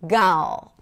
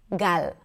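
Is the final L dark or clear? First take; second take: dark; clear. First: The final L is dark, with the tongue back raised. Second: The final L is clear, lighter and shorter. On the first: "The L in American English is a dark L" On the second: "in Hebrew, we don't have that. It's a very simple, clear L"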